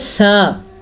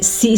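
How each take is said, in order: First: The first consonant is a soft th sound. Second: The first consonant is a hissing s sound. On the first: The speaker calls it right. "ये होता है सा" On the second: The speaker calls it wrong. "सीन वाली आवाज़ से पढ़ते हैं"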